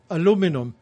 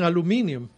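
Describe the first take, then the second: First: The word has four syllables, ending in -num. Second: The word has five syllables, ending in -nium. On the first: "La palabra inglesa es aluminum" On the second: "pero ellos lo pronuncian aluminium"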